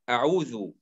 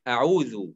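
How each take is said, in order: Both takes have the same delivery.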